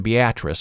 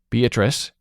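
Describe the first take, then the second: First: The name is said the Nebraska way. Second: The name is said the standard way. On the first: The speaker calls it wrong. "the Nebraska Beatrice" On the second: The speaker calls it right. "finally wised up and called her Beatrice"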